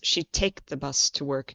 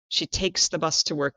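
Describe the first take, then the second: First: The verb ends without an s sound. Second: The verb ends with a clear s sound. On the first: The speaker calls it wrong. "we lose the S, and it sounds like" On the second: The speaker calls it right. "We need to make sure it sounds like she takes"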